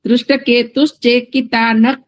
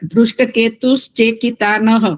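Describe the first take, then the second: First: The final sound is a half k. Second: The final sound is a breathy h. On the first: The phrase runs on into the next word. "ત્યાં કકાર અડધો ઉચ્ચાર થવો જોઈએ" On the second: The phrase is recited as a separate unit. "તો છૂટું બોલો તો વિસર્ગ"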